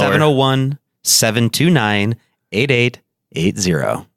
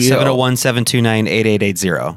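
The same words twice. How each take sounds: First: The number is said slowly. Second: The number is said at normal speed.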